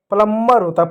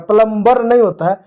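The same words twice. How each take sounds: First: प्लम्बर said pələmːər, b silent; right plumber. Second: प्लम्बर said pələmbər with the b sounded; wrong plumber. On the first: Teacher gives pupils the right प्लम्बर. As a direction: hold the m in प्लम्बर, no b. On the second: Teacher shows pupils the wrong प्लम्बर. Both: Shown as a demonstration.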